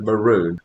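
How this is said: It is said the Queensland Australian way. "if you're from some parts of Australia, particularly from here in Queensland, you probably want to say maroon"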